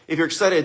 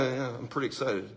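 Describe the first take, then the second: First: Said in the usual way. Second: Much softer, lower, deadpan claim of excitement; flat, unexcited. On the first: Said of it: "If you're excited, be excited". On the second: Shown as a demonstration. Showing the audience how not to sound excited, dull and quiet. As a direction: say you're excited with zero energy, barely audible. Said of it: "don't go".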